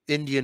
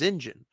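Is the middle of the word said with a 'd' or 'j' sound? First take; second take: d sound; j sound. First: The middle has a clear 'd-ee' sound. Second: The middle is squeezed into a 'j' sound. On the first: "mispronunciation of Indian" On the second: "is Indian. Because the exact same people say idjit instead of idiot"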